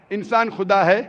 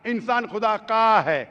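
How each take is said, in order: First: Said in the usual way. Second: "का" drawn out, then falling; stress on possessive. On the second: Shown as a demonstration. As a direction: lean on "का" and stretch it.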